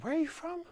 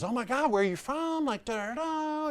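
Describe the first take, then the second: First: Very high imitated woman's voice, question lifting at the end; curious shop lady. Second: Very high-pitched imitation of a chatty saleswoman; gushing shop lady. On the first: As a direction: mimic her asking in a high little voice. Lady asks after noticing accent. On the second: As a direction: squeal it like an overfriendly shop assistant.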